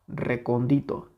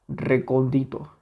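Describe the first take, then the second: No difference in how they are said.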